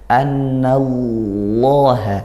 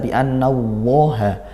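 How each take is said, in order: First: The heavy l sound is made with the tongue tip. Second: The heavy l sound is made with rounded lips. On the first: The speaker calls it right. "tapi tetap di ujung lidah lamnya. Annallaha, seperti itu" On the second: The speaker calls it wrong. "Jangan sampai kita baca bi annallaha. Jangan pakai bibir"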